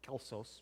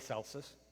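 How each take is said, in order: First: The name is said the Greek way. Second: The name is said the Italian way. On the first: "Greek would have been uh, Kelsos" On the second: "we've adopted the Italian pronunciation"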